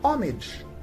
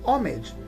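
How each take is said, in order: First: The word begins directly with a vowel sound. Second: The same.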